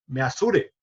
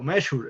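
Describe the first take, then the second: First: The word is read letter by letter, Spanish-style. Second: The word has its normal English pronunciation. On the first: The speaker calls it wrong. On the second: The speaker calls it right.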